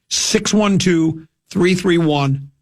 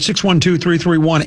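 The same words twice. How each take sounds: First: The number is read slowly and deliberately. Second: The number is read at a normal, quicker pace.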